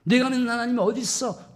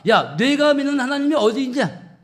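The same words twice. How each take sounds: First: High jeer, less forceful; mocking taunt. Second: Loud, high jeering challenge; mocking taunt. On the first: People needling David about his God, mocking with restraint. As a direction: repeat the scoff without shouting. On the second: People challenging David about his God, loudly mocking. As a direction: throw it out as a shouted scoff. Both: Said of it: "조롱하고 비아냥거리는 거예요".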